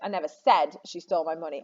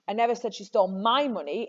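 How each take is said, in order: First: The stress is on "said". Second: The stress is on "my".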